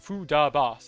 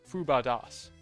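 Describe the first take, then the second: First: The second syllable is 'da', the third 'bas'. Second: The second syllable is 'ba', the third 'das'. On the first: The speaker calls it wrong. "I've been saying the syllables in the wrong order" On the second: The speaker calls it right. "It's Fu-ba-das"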